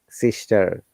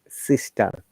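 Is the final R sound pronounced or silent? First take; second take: pronounced; silent. First: The final R sound is clearly pronounced. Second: The final R sound is left out. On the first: This is the American way. "you must pronounce it" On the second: This is the British way. "we never pronounce it"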